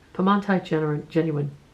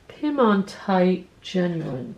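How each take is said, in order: First: The name is said firmly and confidently. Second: The name is said hesitantly and uncertainly.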